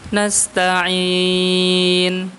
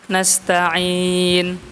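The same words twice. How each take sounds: First: The vowel before the final n is held moderately. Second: The vowel before the final n is held briefly. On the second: "Panjangnya kan dua"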